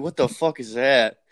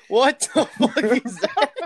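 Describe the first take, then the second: First: Said in the usual way. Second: Slow, high, laughing through the words; laughing disbelief. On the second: Real, not acted. Friend reacting to something awful on screen, laughing disbelief. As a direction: stretch it out high as real laughter breaks in.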